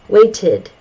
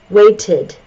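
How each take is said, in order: Both takes have the same delivery.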